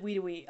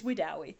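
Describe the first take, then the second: First: "Wedowee" as WEE-doo-wee; mistaken pronunciation. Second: "Wedowee" as wih-DOW-ee; correct pronunciation. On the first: Owning up to one mistake, "Wedowee" as WEE-doo-wee. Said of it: "one time I said Wedowee". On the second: Setting the record straight, "Wedowee" as wih-DOW-ee. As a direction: put DOW like "cow" in "Wedowee". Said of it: "It's Wedowee". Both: Shown as a demonstration.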